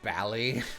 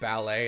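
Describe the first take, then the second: First: The word ends with an "ee" sound. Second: The word ends with an "ay" sound. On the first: "a couple accents uh, in the U K pronounce it this way" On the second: "Instead of ballet"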